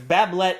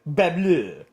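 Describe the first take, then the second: First: The surname is read with English sounds. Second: The surname is said with French sounds. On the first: The speaker calls it wrong. "Bablet is probably not how you say his name" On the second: The speaker calls it right. "I'm going to assume this guy's French"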